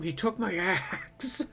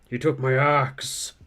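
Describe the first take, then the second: First: It is said in a normal-pitched voice. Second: It is said in a much deeper voice. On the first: The speaker calls it wrong. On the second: The speaker calls it right.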